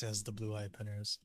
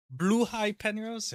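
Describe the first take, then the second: First: Said in the usual way. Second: Slow, high-pitched query; raised-pitch exclaiming question; high surprised question. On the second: Real, not acted. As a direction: ask it high and drawn out. Excited question, then calm answer.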